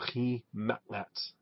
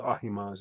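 First: A guttural H, ending in a ts sound. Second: A plain H, ending in a z sound. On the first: "That H is a guttural H sound, and the Z is the T-S" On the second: "I'll stick with Ahimaaz. It's easier"

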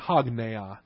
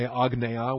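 First: The word starts with an h sound. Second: The word starts with a vowel, no h. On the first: The speaker calls it right. "we say hagneia" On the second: The speaker calls it wrong. "we don't say agneia"

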